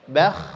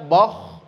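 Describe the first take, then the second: First: Both sounds are light and thin. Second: Both sounds are heavy and thick. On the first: "Jangan dibaca yang pertama bakh, ini salah" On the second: "Yang kedua dibaca boh, itu juga salah"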